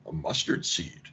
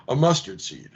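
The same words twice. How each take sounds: First: Breathy near-whisper, much softer and lower; hushed cryptic answer. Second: Laughing repeat. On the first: Jesus answering the kingdom question in a cryptic hush. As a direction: drop to a secretive hush. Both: Pretend.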